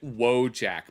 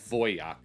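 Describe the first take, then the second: First: It is said the everyday English way. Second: It is said the original Polish way. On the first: This is how the community usually says it. "we pronounce it Wojak" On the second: This is the technically correct original form. "it's technically Wojak because it's a, a Polish word"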